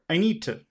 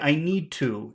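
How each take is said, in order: First: The phrase is said quickly and shortened. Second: The phrase is said slowly and fully. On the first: "in the middle of a sentence, it would be short" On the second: "You can say I need to if you want"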